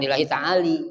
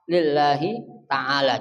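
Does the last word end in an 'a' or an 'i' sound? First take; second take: i; a. First: The last word ends with an 'i' vowel. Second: The last word ends with an 'a' vowel. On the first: The speaker calls it wrong. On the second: The speaker calls it right.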